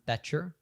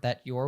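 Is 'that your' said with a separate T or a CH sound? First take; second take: CH sound; separate T. First: The T and Y merge into ch. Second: The T and Y stay separate sounds. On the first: "it turns into a ch sound" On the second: "or that your would become"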